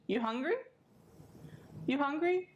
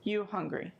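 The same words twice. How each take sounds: First: "You hungry?" with "hungry" rising high at the end; question tone. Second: "You hungry?" said flat, falling at the end like a statement. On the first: Teacher shows question tone: "hungry" rising high. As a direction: lift "hungry" up into a clear question. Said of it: "like using the tone for a question". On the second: Teacher shows statement tone: flat, falling "You hungry?". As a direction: drop "hungry" down, no question lift. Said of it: "if my face is flat, that's like if my voice is flat". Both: Shown as a demonstration.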